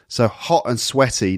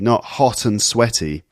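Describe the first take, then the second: First: It is said in an Essex accent. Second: It is said in a standard accent. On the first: "hot and sweaty, she says"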